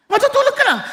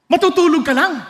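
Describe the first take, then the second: First: "Matutulog ka lang." repeated high, as if scoffing; mock echo. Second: Said in the usual way. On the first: Shown as a demonstration. The preacher mocking a wrong idea of death as sleep. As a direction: echo the idea back in mild disbelief. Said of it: "Hindi ganun ang ibig sabihin". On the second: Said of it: "baka tanungin niyo".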